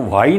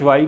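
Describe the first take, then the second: First: वाई with a plain w, no h; silent H. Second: वाई as the wrong reading, h sounded after w. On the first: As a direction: drop the h at the start of वाई. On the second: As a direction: put an h into the start of वाई. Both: Shown as a demonstration. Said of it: "वाई ना कहकर वाई कहना चाहिए".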